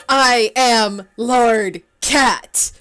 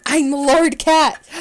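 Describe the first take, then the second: First: Gasp, then very slow and loud; a breathless, awestruck royal decree; gasping grand declaration. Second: Slow, loud, grand announcement; slow proclamation. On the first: Gasped dramatic self-naming. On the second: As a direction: declare it like royalty. Proclaims new game name. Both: Acted.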